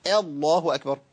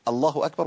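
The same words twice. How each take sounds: First: الله أكبر with the opening A of الله bent to "ehl-lah"; imala on hamza. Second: Said in the usual way. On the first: Shown as a demonstration. Teacher asks which is easier to say, imala on الله. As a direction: begin الله on a tilted E sound, drawn out. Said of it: "إمالة للهمزة". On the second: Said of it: "أيهما أسهل علي أنا في النطق؟".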